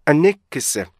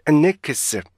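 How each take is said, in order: The two takes are said the same way.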